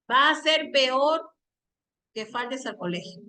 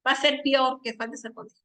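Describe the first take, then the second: First: Unhurried, fully pronounced "peor" with both vowels clear; careful two-syllable peor. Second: Quicker take, "peor" squeezed into pior; rushed slurred peor. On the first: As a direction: separate the e and o of "peor". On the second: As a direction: run "peor" together as one syllable, pyor. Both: Shown as a demonstration. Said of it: "¿Te das cuenta la rapidez?".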